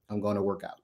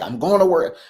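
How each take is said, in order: First: It is said flatly, with grim determination. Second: It is said cheerfully, with glee. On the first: The speaker forces himself to exercise out of discipline. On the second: The speaker is happy to go exercise.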